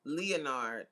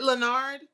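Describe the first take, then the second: First: "Leonard" as lee-uh-NARD; "Leonard" in three syllables, lee-uh-nard; trying another pronunciation. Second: "Leonard" as luh-NARD, first vowel reduced; "Leonard" in two syllables, luh-NARD; trying a pronunciation. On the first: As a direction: say "Leonard" with a clear LEE at the start. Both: Shown as a demonstration. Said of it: "saying that name wrong".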